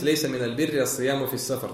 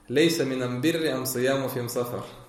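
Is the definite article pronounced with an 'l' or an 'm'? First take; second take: l; m. First: The articles are pronounced with an l sound. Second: The articles are pronounced with an m sound. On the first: This is the usual way the article is formed. "если у нас хадис" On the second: This is how one tribe's dialect forms the article. "И приводится хадис"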